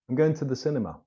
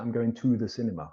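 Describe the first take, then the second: First: The word 'to' is reduced and weak. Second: The word 'to' is full and strong. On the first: The speaker calls it right. "the weak form becomes t" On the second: The speaker calls it wrong. "We don't say"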